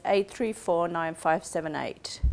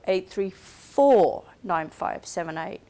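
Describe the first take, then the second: First: Said in the usual way. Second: Four stressed, said slowly; slow down and hit four as the correction. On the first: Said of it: "listening for is that contrastive stress". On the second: Shown as a demonstration. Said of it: "contrastive stress pattern on the incorrect digit".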